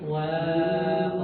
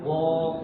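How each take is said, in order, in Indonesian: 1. Bunyi w itu tipis dan ringan. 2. Bunyi w itu tebal dan berat. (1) "wawunya itu tipis" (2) "Jangan waq"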